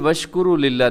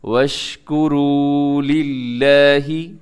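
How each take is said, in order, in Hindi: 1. यह वाक्यांश छोटा और झटके से बोला जाता है। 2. यह वाक्यांश लंबा खींचकर और बढ़ाकर बोला जाता है। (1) "नहीं पढ़ना" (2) "थोड़ा लंबा करके पढ़िएगा"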